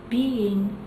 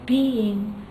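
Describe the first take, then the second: No difference in how they are said.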